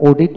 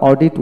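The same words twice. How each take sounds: First: অডিট as "o-dit", no r in the first syllable; taught pronunciation. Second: অডিট as "or-dit", with an r-coloured first vowel; Bangladeshi-style অডিট, "or-dit"; local pronunciation. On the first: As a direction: say অডিট with a pure long "o". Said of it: "এখন অডিট উচ্চারিত হয়". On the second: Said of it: "এখন আমরা অডিট উচ্চারণ করি". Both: Shown as a demonstration.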